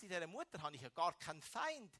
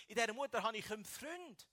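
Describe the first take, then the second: First: Said in the usual way. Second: Dieser punched higher and louder; "dieser" lifted and louder, the sentence resolving on Freund; stress on dieser. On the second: Shown as a demonstration. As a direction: hit "dieser" to answer the setup line.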